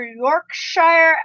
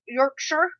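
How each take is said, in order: First: "Yorkshire" said slowly, ending like "shyer"; spelled-out "shire" ending. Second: "Yorkshire" said softer, ending like "sher"; reduced "shire" ending. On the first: Streamer naming two friends' accent, "Yorkshire" ending in full "shyer". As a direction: stretch "Yorkshire" out with a long-i "shire". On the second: Streamer restating the accent's name, "Yorkshire" with short "sher" ending. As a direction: swallow the end of "Yorkshire" to "sher". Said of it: "their Yorkshire accent". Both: Shown as a demonstration.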